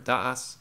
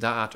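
First: The word ends with an s sound. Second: The word ends with a t sound. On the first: "or da'as" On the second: "you could pronounce it da'at"

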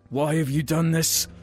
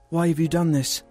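First: The line is delivered in a menacing, villainous tone. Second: The line is delivered in a shocked, heroic tone. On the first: The speaker calls it wrong. "That sounds like a villainous thing to say" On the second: The speaker calls it right. "Let me change my inflection"

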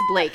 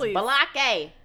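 First: The name is said as one syllable. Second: The name is yelled with an extra syllable. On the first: The speaker calls it right. "It's Blake" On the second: The speaker calls it wrong. "he yells Balake"

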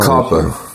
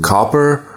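First: The word ends in a soft 'a' sound. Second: The word ends with a strong R sound. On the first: "soft A" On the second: "hard R"

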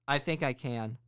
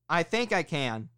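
First: The words are spoken at moderate volume. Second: The words are spoken loudly and forcefully. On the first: "The second one you're going to say a little louder" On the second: "The third one you're going to be loud"

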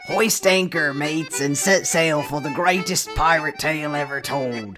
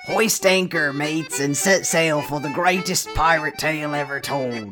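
First: It is read in a put-on pirate voice. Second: It is read in a put-on pirate voice.

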